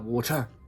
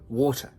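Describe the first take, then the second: First: The stress is on the second syllable. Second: The stress is on the first syllable. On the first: The speaker calls it wrong. "Tu dis pas water. Ça, ça se dit pas" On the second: The speaker calls it right. "la syllabe qui est accentuée, c'est le wo"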